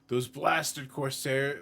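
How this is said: It is read in a male character voice. The speaker calls it wrong. "sorry, I'm using a male voice"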